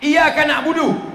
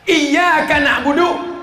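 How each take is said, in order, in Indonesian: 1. Bunyi y pendek dan tunggal. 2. Bunyi y ditahan panjang dan didobel. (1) "Tidak pakai tasdid. ... kepada matahari kami menyembah" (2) "pakai tasdid"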